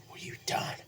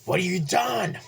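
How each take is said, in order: First: Breathless whisper of shock. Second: Anguished cry. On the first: Harry whispers in shock over his father's body. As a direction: whisper it, stunned. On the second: Harry cries out at Peter over his father's body. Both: Retold or imitated.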